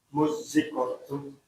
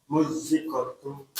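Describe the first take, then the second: No difference in how they are said.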